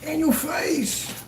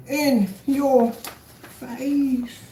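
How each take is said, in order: First: High, slow crowing; high-pitched victory taunt; gloating taunt. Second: Extremely slow, high singsong taunt; word-by-word, long-held crowing; drawn-out gloat. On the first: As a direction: rub the win in, stretched out. Gloating over a won case. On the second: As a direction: stretch every word to rub it in. Repeats the gloat, stretched right out. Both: Real, not acted.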